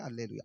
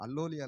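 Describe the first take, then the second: First: The vowels are said as 'alleluia'. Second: The vowels are said as 'allolia'. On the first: The speaker calls it right. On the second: The speaker calls it wrong.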